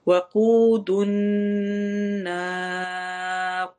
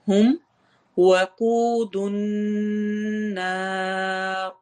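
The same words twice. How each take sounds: First: Slow chant with a longer stretch on النار; slow Quran recitation. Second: Slow tajweed chant, vowels stretched; slow Quran recitation. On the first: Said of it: "زیادہ لمبا کرتے ہیں". (مد عارض کے ساتھ لمبا کر کے پڑھیں) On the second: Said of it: "واو مدہ ہوگی". (آہستہ تلاوت) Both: Shown as a demonstration.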